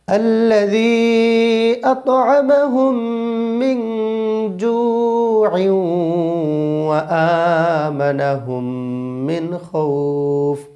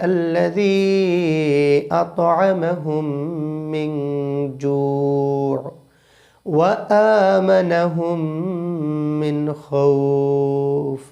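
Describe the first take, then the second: First: It runs on without a pause after جوع. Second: There is a pause after جوع.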